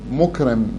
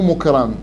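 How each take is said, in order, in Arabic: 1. الحركة بعد الراء كسرة. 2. الحركة بعد الراء فتحة. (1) "مكرم بالكسر، بكسر الراء" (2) "مو مكرم"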